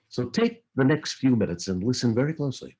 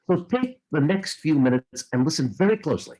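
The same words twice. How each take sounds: First: It is delivered in a laid-back way. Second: It is delivered in a more excited way.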